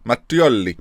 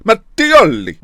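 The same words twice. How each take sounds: First: Put-on restrained Italian accent. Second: High, loud, hammed-up Italian accent; exaggerated Italian accent. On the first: Gamer practising the chairman's name, light Italian accent. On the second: Gamer showing off his Italian, exaggerated Italian accent. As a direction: punch the name out like a theatrical Italian. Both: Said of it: "I'm a lot more Italian".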